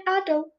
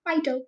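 First: "idol" fumbled on the first try; botched attempt at saying "idol"; mispronounced. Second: "idol" said over as a correction; self-corrected attempt at saying "idol"; second try. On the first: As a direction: stumble over the word "idol". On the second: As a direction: have another careful go at "idol". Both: Real, not acted. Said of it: "cannot even say it".

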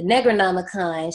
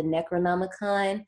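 First: "Negronomicon", a g in place of the usual c; altered pronunciation. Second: Said in the usual way. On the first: Shown as a demonstration. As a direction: say "Negronomicon" with a hard g in the first syllable. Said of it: "we're gonna be calling it the Negronomicon". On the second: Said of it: "we are fully aware that this is called".

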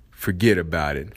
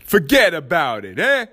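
First: Said in the usual way. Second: A playful hint of a New York Italian accent. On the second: Podcaster jokingly signs off a point in mock Italian accent. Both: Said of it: "That's my Italian accent".

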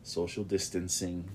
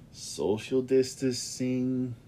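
First: "distancing" said properly with the n, a little slow; corrected pronunciation. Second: "distancing" slurred as "distasing", dropping the n, drawn out slow; mispronounced. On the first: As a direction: say "Social distancing" carefully, with the n in "distancing". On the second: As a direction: drawl out "social distancing" slowly, saying "distancing" without the n. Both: Real, not acted. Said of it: "I'm sorry, I mispronounced that".

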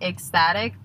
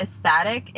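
First: Ecstatic said "ek-static", questioning; retry Ecstatic with the k sounded, rising; second pronunciation try. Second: Ecstatic said like "es-tatic", questioning; unsure pronunciation. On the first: Host checking a word with listeners, retrying Ecstatic as "ek-static". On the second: Host checking a word with listeners, unsure pronunciation of Ecstatic as "es-tatic". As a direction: test out Ecstatic without its first k sound, rising. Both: Real, not acted. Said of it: "Is that how you say it?".

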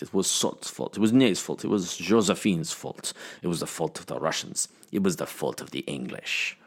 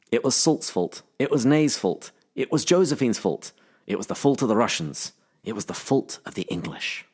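First: Dubious French accent drifting toward Russian. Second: Put-on British accent drifting toward Scottish; accusing quote in a wobbly, faintly Scottish accent; attempted accent. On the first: Shown as a demonstration. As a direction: try a French accent, sinking softer toward the end. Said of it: "saying it in a French accent". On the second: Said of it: "started to bring your Scottish accent".

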